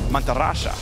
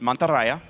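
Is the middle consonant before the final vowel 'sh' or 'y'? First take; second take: sh; y. First: The consonant before the last vowel is 'sh'. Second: The consonant before the last vowel is 'y'. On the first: "In deep South South America, the Y becomes an S H sound" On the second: "in Spain, Spain Spanish, it's Mantarraya, right? You pronounce the Y normally"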